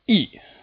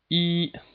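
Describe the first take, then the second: First: The pitch falls sharply from high to low. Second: The pitch stays level and high throughout. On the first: "the sharp downward striking tone" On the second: "From five to five, that's the first tone"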